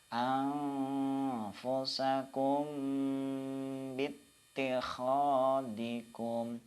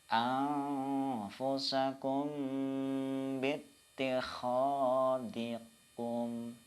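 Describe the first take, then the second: Both takes have the same delivery.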